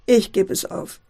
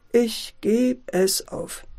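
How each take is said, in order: First: Said in the usual way. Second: "ich geb es auf" drawn out slowly; slow resignation. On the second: Acted. Father resigns, repeating it slowly. ("ich geb es auf" langsam und resigniert)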